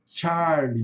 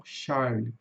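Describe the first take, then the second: First: Charlie starting with a TCH; TCH sound. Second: The wrong Charlie, SH at the start; Portuguese-style Charlie with SH; wrong SH sound. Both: Shown as a demonstration. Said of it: "não Charlie".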